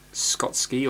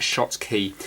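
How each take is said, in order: First: "Skotski" with a hard sk at the start; "Skotski", a fumbled guess at Schottky; mispronunciation. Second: "Shot Key" in two clear parts, ending in key; correct pronunciation. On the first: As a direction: say "Skotski", sk up front and ski at the end. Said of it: "what I was saying before". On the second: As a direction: say "Shot Key" as SHOT plus KEY, unhurried. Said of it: "but, uh, it's Shot Key". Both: Shown as a demonstration.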